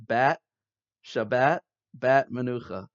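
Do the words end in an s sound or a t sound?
t sound. The words end with a t sound.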